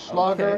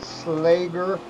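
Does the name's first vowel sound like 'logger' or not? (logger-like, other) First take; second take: logger-like; other. First: The vowel sounds like the one in logger. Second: The vowel does not sound like logger's vowel. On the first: The speaker calls it wrong. "I always thought it was Slogger, as in like a logger" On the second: The speaker calls it right. "but I believe it is Lawton Slager"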